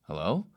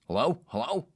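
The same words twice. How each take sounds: First: Mildly raised questioning hello; puzzled reply. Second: Loud, higher, insistent hello; caller shouting hello. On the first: Host answers an unexpected voice on the speaker, mildly puzzled. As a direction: answer an unknown caller, a touch puzzled. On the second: Man locked outside calls into the door speaker, shouting. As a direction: imitate someone calling impatiently over an intercom. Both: Retold or imitated.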